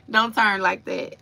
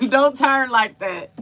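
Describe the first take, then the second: First: Said in the usual way. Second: Words bubbling through real laughter; Don't turn like that said with a laugh. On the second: Real, not acted. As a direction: still laughing, higher and louder. Laughing at herself mid-story.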